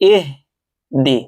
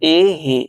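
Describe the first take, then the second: First: It stops after ih, then a clear d. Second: The d sound is dropped after ih. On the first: The speaker calls it right. "ইহ স্টপ হয়ে যাব" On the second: The speaker calls it wrong. "এখানে আমরা বেশিরভাগ মানুষ ভুল করে থাকি"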